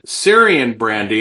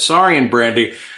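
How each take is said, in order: First: The first syllable sounds like 'seer'. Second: The first syllable sounds like 'sore'. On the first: The speaker calls it wrong. "I think I pronounced it Syrian brandy" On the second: The speaker calls it right. "Crispin was like, it's Saurian brandy"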